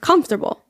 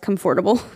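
First: The middle syllables are reduced and run together. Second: Every syllable is pronounced fully and distinctly. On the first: The speaker calls it right. "but it's just comfortable" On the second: The speaker calls it wrong. "I always pronounce it in my head as comfortable. ... Like I over-pronunciate it in my head"

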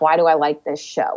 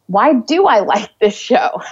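First: The voice sounds ashamed and judgmental. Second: The voice sounds open and curious. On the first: The speaker is scolding herself. The speaker calls it wrong. "judgmental and shaming, ... is this shame of, oh" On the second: The speaker is genuinely wondering. The speaker calls it right. "more curious with ourselves ... Instead of saying like"

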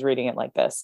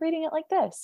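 First: It is said in a grown-up sounding voice. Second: It is said in a young child's voice. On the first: The narrator has grown up further. "all of a sudden" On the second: The narrator is a young child. "more of an 8-year-old voice"

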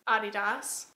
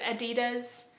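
First: It is pronounced the German way. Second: It is pronounced the American way. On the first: This is how the brand's home country says it. "apparently is the correct pronunciation because the founder is German" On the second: This is how people in America say it. "in America we pronounce it"

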